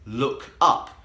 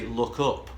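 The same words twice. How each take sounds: First: The two words have different vowels, southern style. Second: Both words share the same northern vowel. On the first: "I have the uh sound in look, but the uh sound in up" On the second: "northerners... would say look up... and have the same vowel in both"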